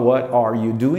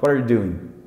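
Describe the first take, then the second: First: Each word is pronounced fully and separately. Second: The words are reduced and run together quickly. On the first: The speaker calls it wrong. "ele não fala what are you doing" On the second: The speaker calls it right. "Quando o americano fala bem rápido isso"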